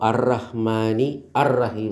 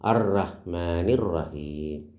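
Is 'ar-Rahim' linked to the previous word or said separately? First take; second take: separate; linked. First: The initial vowel of ar-Rahim is pronounced separately. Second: The initial vowel is dropped, linking both words. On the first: The speaker calls it wrong. "എന്ന് പറയൂല" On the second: The speaker calls it right. "അലിഫ് ... ഉച്ചരിക്കൂല"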